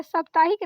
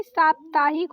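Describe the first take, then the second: First: First vowel of साप्ताहिक cut short, 'saptaahik'; wrong vowel साप्ताहिक. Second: First vowel of साप्ताहिक long, 'saaptaahik'; corrected vowel साप्ताहिक. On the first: Teacher quotes the faulty word, short first vowel in साप्ताहिक. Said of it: "साप्ताहिक नहीं". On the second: Teacher corrects the word for students, long first vowel in साप्ताहिक. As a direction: open and lengthen the first syllable of साप्ताहिक. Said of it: "साप्ताहिक होता है". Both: Shown as a demonstration.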